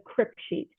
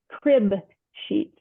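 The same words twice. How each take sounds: First: The first word sounds like crypt. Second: The first word ends in a b sound. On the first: The speaker calls it wrong. "I said it wrong again" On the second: The speaker calls it right. "It's a crib sheet with a B"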